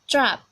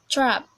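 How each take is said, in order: The two takes are said the same way.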